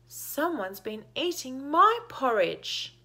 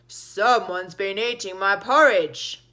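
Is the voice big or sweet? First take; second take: sweet; big. First: The voice is sweet and gentle. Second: The voice is big and heavy. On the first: "said in a sweet voice" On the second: "said in a big voice"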